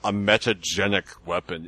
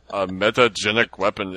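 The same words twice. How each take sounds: First: A light mock Russian accent on "a metagenic weapon"; imitating Picard, Russian-ish. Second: Lightly imitated Russian accent on "A metagenic weapon"; mock Russian Picard. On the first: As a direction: Picard quote with a faint Russian accent, hammed-up. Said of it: "And he said it just like that". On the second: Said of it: "And he talked like he was Russian".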